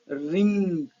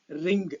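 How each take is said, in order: First: It ends in a plain nasal ng. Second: A hard g sound follows the nasal. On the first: The speaker calls it right. "with the final ng" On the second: The speaker calls it wrong. "Last they pronounce g sound"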